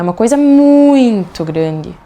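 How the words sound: The word muito is stretched and strongly emphasized. It conveys that the thing was truly huge. The speaker calls it right. "vocês aprofundam esse muito"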